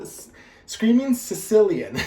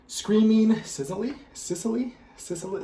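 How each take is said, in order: First: "Screaming Sicilian" said firmly as the right name; "Sicilian" landing sure and louder; corrected name. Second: "Screaming Sicily?" asked with a rising, unsure tune; "Sicily?" rising as a puzzled guess; unsure rising question. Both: Real, not acted.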